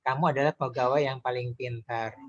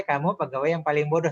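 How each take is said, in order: First: Praising tone. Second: A higher, louder praising lilt on an insult. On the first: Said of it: "Dengan nada memuji". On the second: Coach demonstrates an insult in a praising tone. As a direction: praise him warmly while the words call him stupid. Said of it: "Nada yang memuji". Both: Shown as a demonstration.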